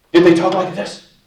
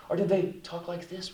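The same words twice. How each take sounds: First: Much louder, higher demonstration voice; raised, overdone voice; loud, harsh tone demo. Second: Small, soft, timid voice; hushed, fearful tone demo; acted afraid. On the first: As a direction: blurt it out forcefully to show a tone. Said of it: "what was their tone of voice". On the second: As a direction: shrink back as if demonstrating fear. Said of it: "Were they afraid?". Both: Shown as a demonstration.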